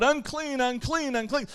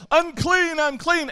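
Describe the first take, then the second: First: A light, raised call of unclean, fading off; lightly mock the leper's warning cry; a restrained, half-voiced unclean call; mild called-out warning. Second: A loud, high cry of unclean; full-voiced unclean warning call; yelled warning. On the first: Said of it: "he was supposed to yell out". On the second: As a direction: shout it out as the outcast leper. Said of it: "whenever you got around somebody".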